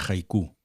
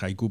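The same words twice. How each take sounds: First: The stress falls on the last syllable. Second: The stress falls on the first syllable. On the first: "lo acentúa un poco a la francesa" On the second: "Yo creo que es haiku porque de hecho a veces se escribe con J"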